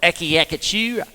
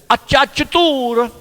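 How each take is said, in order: First: The word is said with hard k sounds. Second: The word is said with ch sounds. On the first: The speaker calls it wrong. "I used to call it when I, when you when you try and pronounce it, it's like" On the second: The speaker calls it right. "But it's"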